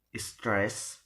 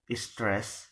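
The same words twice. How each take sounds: The two takes are said the same way.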